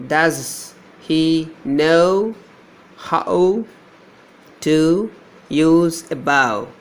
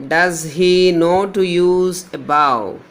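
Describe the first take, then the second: First: Very slow, stretching each word; slow dictation. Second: Said in the usual way. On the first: Shown as a demonstration. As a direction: draw out the words so the diphthongs stand out. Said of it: "Here we have a diphthong". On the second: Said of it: "that is".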